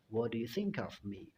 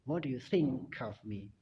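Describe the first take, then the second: First: The k of think links into of. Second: The k of think links into of.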